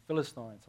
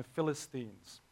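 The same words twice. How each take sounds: First: "Philistines" ending in English "-stines" with the eye sound; English correction. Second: "Philistines" ending in a long ee, as in Phili-steens; Afrikaans pronunciation. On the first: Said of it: "I should say". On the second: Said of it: "Bit of Afrikaans in there". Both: Real, not acted.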